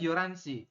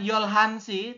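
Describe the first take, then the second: First: The h sound in the middle is dropped. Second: The h sound in the middle is clearly pronounced. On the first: The speaker calls it right. "tapi dibaca adalah yoransi" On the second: The speaker calls it wrong. "Bukan yolhansi"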